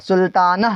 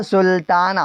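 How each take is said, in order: First: سلطانہ with a breathed h at the end; wrong audible final h. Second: سلطانہ ending in a long open "naa"; silent final h. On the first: Teacher shows what is not said, سلطانہ ending in audible h. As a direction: sound the last ہ of سلطانہ as an h. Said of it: "نہیں کہتے ہیں". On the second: Teacher shows what is read, سلطانہ with no final h. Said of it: "ہا پڑھائی میں نہیں آتا". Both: Shown as a demonstration.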